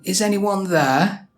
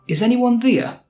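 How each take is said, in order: First: Said in a standard English accent. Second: Said in a Yorkshire accent with a stronger vowel. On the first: "instead of saying" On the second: "There can sound like here in a Yorkshire dialect"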